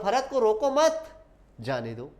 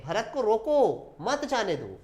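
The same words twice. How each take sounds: First: रोको मत as one slow group, then जाने दो; pause after मत. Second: Stretched रोको, then मत जाने दो as one group; pause after रोको. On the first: Teacher contrasts two meanings for students, pausing after मत. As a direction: hold मत, break, then release जाने दो. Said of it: "उसको जाने देने की बात हो रही है". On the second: Teacher contrasts two meanings for students, pausing after रोको. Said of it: "उसको रोकने की बात हो रही है". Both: Shown as a demonstration.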